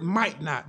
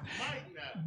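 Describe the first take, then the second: First: Said in the usual way. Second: "Might not" whispered, voiceless and much softer. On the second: Shown as a demonstration. Preacher stresses the key word to the congregation, whispered. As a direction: drop to a hush for "Might not". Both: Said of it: "Underline that word".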